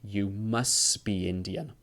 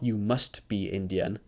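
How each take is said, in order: First: The t at the end of 'must' is dropped. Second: The t at the end of 'must' is pronounced. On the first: The speaker calls it right. "but it's like ... the ta goes away" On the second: The speaker calls it wrong. "So it's not"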